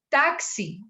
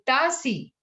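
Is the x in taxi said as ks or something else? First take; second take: ks; something else. First: The x is said fully as ks. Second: The x is not said as ks. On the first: The speaker calls it right. "porque es una X por allá atrás" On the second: The speaker calls it wrong. "sino dice taxi"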